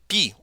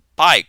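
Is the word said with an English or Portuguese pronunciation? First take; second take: Portuguese; English. First: It is said with a Portuguese pronunciation. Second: It is said with an English pronunciation.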